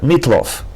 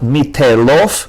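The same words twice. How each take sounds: First: The t is followed by no vowel. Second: A short vowel follows the t sound. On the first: The speaker calls it right. "The schwa on the tet is silent, just the sound of t" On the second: The speaker calls it wrong. "Not meatloaf"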